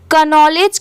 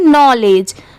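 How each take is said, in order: First: The k at the start is pronounced. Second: The k at the start is silent. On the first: The speaker calls it wrong. "इसे का नॉलेज क्यों नहीं पढ़ते" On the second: The speaker calls it right. "यहाँ पर पढ़ते time के silent होता है"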